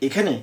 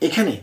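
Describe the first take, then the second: No difference in how they are said.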